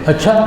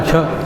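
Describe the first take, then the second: First: It is said as an asking question. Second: It is said as a confirming statement. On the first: The speaker is asking something. "ये सवाल है" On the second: The speaker agrees or confirms. "ये तायीद है"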